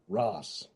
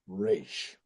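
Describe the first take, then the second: First: The name rhymes with 'boss' and ends in s. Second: The name rhymes with 'rash' and ends in sh. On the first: This is how he privately read the name. The speaker calls it wrong. "because I always said in my head" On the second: This is the creator's intended pronunciation. The speaker calls it right. "That's how it's done"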